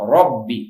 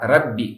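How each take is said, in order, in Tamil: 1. r ஒலி கனமாகவும் தடிப்பாகவும் இருக்கிறது. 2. r ஒலி லேசாகவும் மெல்லியதாகவும் இருக்கிறது. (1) "தடிப்பமான தஃபீமான ரோதம்" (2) "நாட்"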